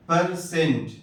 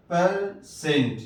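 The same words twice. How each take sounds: First: Said in the usual way. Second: پرسنٹ slowed down, ending on a clear hard ٹ; slow pronunciation. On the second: Shown as a demonstration. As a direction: draw out پرسنٹ with a short uh first vowel. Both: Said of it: "ای سے زبر کی بھی آواز آتی ہے".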